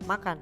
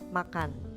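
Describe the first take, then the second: First: It is said with the tune of a command. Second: It is said with the tune of a statement. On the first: It orders someone to do it. "kalau diberi tanda suruh, ... kalau dilisankan akan seperti" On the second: It gives information. "ketika diberi tanda titik, maka kata tersebut yaitu makan akan bernada seperti demikian"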